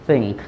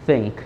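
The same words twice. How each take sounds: Both takes have the same delivery.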